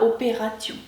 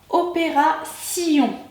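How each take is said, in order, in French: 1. Le t devant -ion se prononce t. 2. Le t devant -ion se prononce s. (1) "et non pas opération" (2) "la lettre T suivie de ion se prononce S, comme dans opération"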